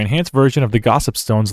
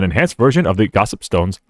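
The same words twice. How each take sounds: First: It is read in a normal everyday voice. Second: It is read in a put-on character voice.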